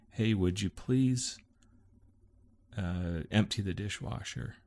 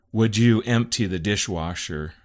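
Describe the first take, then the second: First: Polite request. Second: Loud, pointed demand; demanding reading. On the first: Wife texting husband a chore, politely. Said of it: "that's the way you say it". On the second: Husband misreading wife's text, loud and demanding. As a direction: read it as an order, louder and higher. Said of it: "I read it as". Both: Shown as a demonstration.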